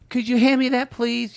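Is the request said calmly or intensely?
calmly. It is said in a calm, polite way.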